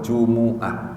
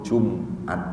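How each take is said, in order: First: The m is followed by a u vowel. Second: The m has no vowel after it. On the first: "boleh didomah" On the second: "boleh mimnya disukun"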